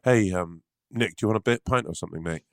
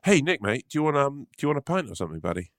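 First: Hurried, lightly put-on mate voice; mate offering a pint in an odd voice. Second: A touch higher and brighter-pitched, easy mate offer; retry it as a friendly pal; redone friendly voice. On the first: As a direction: rush the offer in a slightly odd voice. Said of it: "I don't really like what you're doing with that voice". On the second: Acted. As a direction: friend redoing the pint offer more naturally. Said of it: "let's start again".

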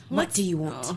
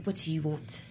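First: Said in the usual way. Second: Quiet, imitating a London accent. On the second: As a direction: mimic his soft London accent. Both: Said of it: "in his London voice".

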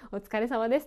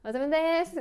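First: Said in the usual way. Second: High, sloppy "お疲れ様です" with an energetic tail; peppy ending only. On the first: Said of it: "ちゃんと言わなきゃいけない". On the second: Shown as a demonstration. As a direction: mumble through "お疲れ様です" and lift just the last "です". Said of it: "だけ元気".

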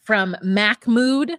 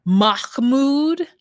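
First: "Mahmoud" with a hard k, mack-mood; mispronounced Mahmoud. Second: "Mahmoud" with a throaty kh, rising; guttural Mahmoud. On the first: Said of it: "I've heard everything from". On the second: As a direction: rasp the kh in "Mahmoud". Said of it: "I've heard everything". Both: Retold or imitated.

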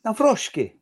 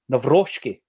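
First: Nawrocki pitched higher, Nav-ROSH-ki; repeating Nawrocki, Nav-ROSH-ki, to get it right; name repeated. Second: Nawrocki as /nəvɹɔʃki/, v sound, sh ending; careful name demo. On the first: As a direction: try Nawrocki again, higher, as /navɹɔʃki/. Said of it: "Right, there you go". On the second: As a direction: say Nawrocki slowly, Nav-ROSH-ki. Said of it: "I'm gonna say it". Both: Shown as a demonstration.

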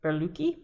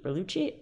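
First: "Berlucci" tried with a hard k, questioning; unsure pronunciation. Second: "Berlucci" with a ch sound, ber-LOO-chee, rising; second try. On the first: Host testing a winemaker's name, hard k guess. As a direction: say "Berlucci" as ber-LOO-kee, rising, unsure. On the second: Host retrying the winemaker's name, ch version. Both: Shown as a demonstration. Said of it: "I think it's Berlucci".

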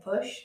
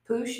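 First: Said in the usual way. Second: Poosh with a long oo; dad's pronunciation. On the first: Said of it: "instead of push". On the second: Shown as a demonstration. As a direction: say push as POOSH. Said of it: "my dad says".

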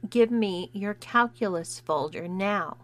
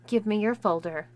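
First: Slow, word-by-word command; intoning each word slowly. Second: Said in the usual way. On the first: Acted. Bully to the new kid, slow and condescending. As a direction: spell it out as if to a dim child. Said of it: "She intoned each word slowly".

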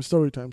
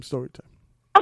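First: Said in the usual way. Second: Drawn-out announcement. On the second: Shown as a demonstration.

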